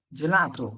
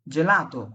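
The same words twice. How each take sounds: First: জেলাতো again with J, lower and falling; soft G repeated. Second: জেলাতো with a J sound, clear; soft G as J. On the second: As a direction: say জেলাতো starting with J. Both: Shown as a demonstration. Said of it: "জি এর পরে যেমন আমি বললাম".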